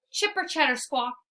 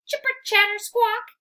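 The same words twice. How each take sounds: First: Squirrel screech. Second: High, loud chattering squirrel; a chattering squirrel's taunt; squirrel screech. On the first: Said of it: "he screeches again". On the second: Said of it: "he screeches". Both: Acted.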